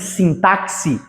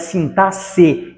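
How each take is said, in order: First: The x is pronounced as a ks sound. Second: The x is pronounced as an s sound. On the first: The speaker calls it wrong. "e não sintaxe" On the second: The speaker calls it right. "esse X tem som de S"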